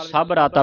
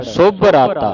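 First: ਸਭ with an a, no u sound; A vowel misreading. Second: ਸੁਭ with a short rounded vowel. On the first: Retold or imitated. Teacher quotes what hurried readers say, ਸਭ ਰਾਤਾ with "a". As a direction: say ਸਭ ਰਾਤਾ as "sabh raataa". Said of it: "ਕਈ ਸੰਗਤਾਂ ਨਾ ਕਾਲ ਵਿੱਚ". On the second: Shown as a demonstration. Teacher corrects readers using the aunkar, ਸੁਭ ਰਾਤਾ with "u". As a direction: say ਸੁਭ ਰਾਤਾ as "subh raataa". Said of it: "ਇੱਥੇ ਲੱਗਾ ਹੈ ਔਂਕੜ".

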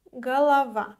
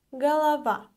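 The two takes are said the same way.

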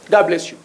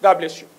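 The two takes are said the same way.

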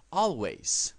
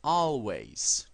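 First: Always said as /olweis/, clear falling; model word for repeating. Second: Always again as /olweis/, falling; second model of Always; repeat model word. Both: Shown as a demonstration. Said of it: "Repitan después de mí".

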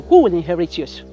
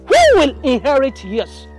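First: Loud, lower-pitched taunting question; loud jab at normal speed; pointed taunt. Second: "Who" stretched long, loud and high; slow, loud hammering of "Who will inherit yours"; drawn-out taunt. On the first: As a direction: put "who will inherit yours" to her pointedly. First asking of taunting question. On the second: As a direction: repeat the taunt louder, higher, drawn out. Taunt repeated for emphasis. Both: Acted.

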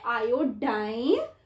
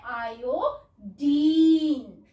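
First: आयोडाइन with the ending rhyming with "dine"; American pronunciation. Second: आयोडीन slow, with a long "deen" ending; British and Indian pronunciation. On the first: Teacher recapping the American reading, आयोडाइन with long i. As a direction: end आयोडाइन on a long eye sound. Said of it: "तो American". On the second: Teacher contrasting the Indian reading, आयोडीन with long ee. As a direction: stretch the final ee of आयोडीन. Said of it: "अपनी Indian language में अगर हम इसको पढ़ते हैं". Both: Shown as a demonstration.

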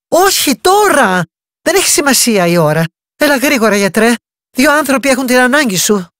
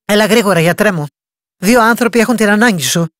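First: Insistent plea. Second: Said in the usual way. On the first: A narrator's reading. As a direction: refuse to take no for an answer. Insisting against the doctor's refusal. (επίμονη, δυνατότερη και ψηλότερη παράκληση)

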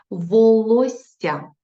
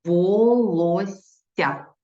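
First: Волосся stretched out very slowly, higher and louder; slow dictation. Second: Волосся drawn out even slower, every syllable apart; slow dictation repeat. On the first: Teacher dictating to pupils, very slow and drawn out. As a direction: draw out Волосся syllable by syllable. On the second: Teacher repeating for pupils, very slow. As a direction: spell out Волосся for writing. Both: Shown as a demonstration. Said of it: "Наступне слово".

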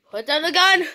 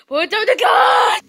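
First: Said in the usual way. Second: Sudden high shout of the command; shouted order. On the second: Acted. Ordering the frog with a shout. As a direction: yell it at him this time.

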